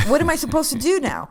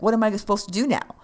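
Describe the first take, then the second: First: Higher, louder whiny repeat; hammed-up bored resident whining; exasperated old lady. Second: Said in the usual way. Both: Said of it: "she's like".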